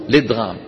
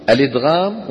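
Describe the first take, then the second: First: الإدغام begun straight on the l, lidgham, no hamza; without the hamza. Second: الإدغام with the opening hamza sounded, a-lidgham. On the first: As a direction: drop the hamza and start الإدغام on the lam. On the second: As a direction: say الإدغام starting on a clear glottal a. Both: Shown as a demonstration. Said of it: "وجهتا نظر،".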